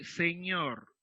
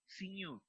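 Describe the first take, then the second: First: Said in the usual way. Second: "señor" said as "siñur"; Quechua-accented vowels. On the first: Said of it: "quiere pronunciar señor". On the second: Retold or imitated. Teacher shows a Quechua speaker's señor, with raised vowels. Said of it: "Sino que dice señor".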